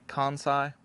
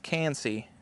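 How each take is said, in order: First: The name ends with an 'eye' sound. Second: The name ends with an 'ee' sound. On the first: It is how other people say it. "I keep seeing people say Kansai" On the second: It is the speaker's own Southern way of saying it. "I like Kansi because I'm from the South"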